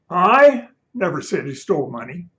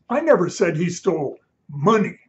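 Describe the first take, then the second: First: The word 'I' is stressed. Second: The word 'money' is stressed.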